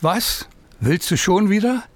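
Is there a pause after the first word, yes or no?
yes. There is a pause after "Was".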